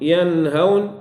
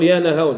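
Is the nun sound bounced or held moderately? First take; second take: moderate; bounced. First: The nun is held with moderate, in-between strength. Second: The nun is released with a bouncing echo. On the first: The speaker calls it right. "توسط البينية" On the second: The speaker calls it wrong. "هذه قلقلة"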